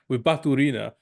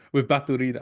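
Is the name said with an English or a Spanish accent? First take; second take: English; Spanish. First: The name is said with a plain English accent. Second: The name is said with a Spanish accent.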